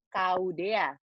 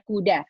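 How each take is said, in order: First: Each letter is read by its alphabet name. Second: The letter sounds are blended into one word. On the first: The speaker calls it wrong. "kalau kita baca kuda dengan kita menggunakan nama hurufnya" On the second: The speaker calls it right. "yang kita rangkai adalah bunyi hurufnya"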